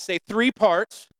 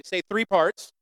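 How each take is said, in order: First: A slow, slightly raised call to the congregation; drawn-out, emphatic "three parts", urging them to shout; rallying call. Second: Said in the usual way. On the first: Shown as a demonstration. Preacher asks congregation to shout it back, rallying call. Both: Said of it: "Come on, shout that".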